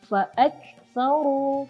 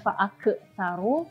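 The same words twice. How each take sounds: First: The k sound has a light breath. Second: The k sound has a heavy breath. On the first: The speaker calls it right. "menghembuskan nafasnya itu begitu lembut" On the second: The speaker calls it wrong. "padahal bukan"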